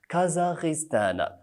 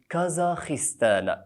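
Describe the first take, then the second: First: The consonant is a voiced 'gh' sound. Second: The consonant is a voiceless 'kh' sound. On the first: The speaker calls it wrong. "خطأ شاسع في قولهم" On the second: The speaker calls it right. "بالخاء وليس بالغين"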